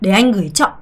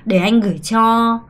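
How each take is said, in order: First: The final word is short and clipped. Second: The final word is drawn out and lengthened. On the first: The speaker calls it wrong. "아니고" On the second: The speaker calls it right. "cho는 항상 이렇게 좀 끌어야 돼요"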